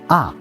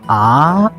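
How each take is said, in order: First: The pitch falls sharply from high to low. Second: The pitch rises from middle to high. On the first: "Last tone going down" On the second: "Second tone going up"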